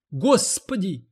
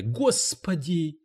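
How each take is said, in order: First: A high wailing "Господи!"; wailing cry. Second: A slow, rasping "Господи!"; hoarse croak. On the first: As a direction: cry it out at the top of her pitch. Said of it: "завопила уборщица". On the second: Cleaning lady croaks to the publisher, hoarse and slow. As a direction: croak it out slowly. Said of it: "прохрипела она". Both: A narrator's reading.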